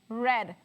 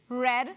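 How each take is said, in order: Both takes have the same delivery.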